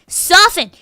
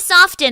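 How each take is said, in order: First: The t in the middle is silent. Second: The t in the middle is pronounced. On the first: The speaker calls it right. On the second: The speaker calls it wrong.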